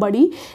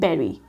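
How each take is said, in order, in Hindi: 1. पहला स्वर 'put' में 'u' जैसा बोला जाता है। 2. पहला स्वर 'bed' में 'e' जैसा बोला जाता है। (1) "उसको हम बोलते हैं बड़ी। लेकिन ये बड़ी नहीं होता" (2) "इसको हम बोलते हैं बेरी"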